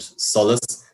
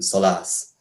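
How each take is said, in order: First: The stress is on the first syllable. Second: The stress is on the second syllable. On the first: The speaker calls it right. "the main stress in words to fall on the first syllable. So we say things like" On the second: The speaker calls it wrong. "we don't say"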